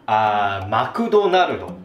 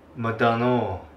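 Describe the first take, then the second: First: It is spoken with a Japanese accent. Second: It is spoken with a Singaporean accent. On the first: "That's the Japanese pronunciation of McDonald's" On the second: "そしてシンガポールではこうです。"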